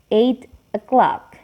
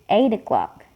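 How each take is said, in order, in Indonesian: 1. Bunyi t-nya jelas, ada jeda sebelum 'o'clock'. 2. Bunyi t-nya tersambung ke kata berikutnya dan terdengar seperti d. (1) "Kalau dipisah, T-nya itu kedengaran ya bunyinya agak jelas" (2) "kalau misalnya mau disambung, bunyi T-nya itu jadi kayak berubah jadi bunyi D"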